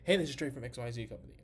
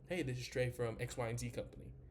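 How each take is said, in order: First: It is said in a hyped, pushy, energetic way. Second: It is said in a calm, relaxed, laid-back way. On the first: The speaker calls it wrong. "I'm not very" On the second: The speaker calls it right. "I'm a lot more laid back"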